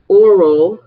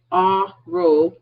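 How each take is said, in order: First: "oral" drawn out slowly with a rounded "aw", louder. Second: "oral" as a slow "AH-roh", opening on "ah"; aural with an A. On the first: Teacher contrasting mouth with ear, oral with emphatic O. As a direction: stress the opening O of "oral", slow and loud. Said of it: "oral with an O". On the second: Teacher spelling out the ear word, clear A sound. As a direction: split "oral" slowly, with an open "ah" first. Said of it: "oral with an A". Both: Shown as a demonstration.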